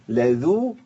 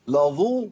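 First: The first consonant is light and thin. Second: The first consonant is heavy and emphatic. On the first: The speaker calls it right. "اقول ايه لذو" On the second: The speaker calls it wrong. "ده كتير بيقع فيه ليه استعدادا للضاد"

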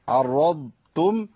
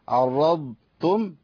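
No difference in how they are said.

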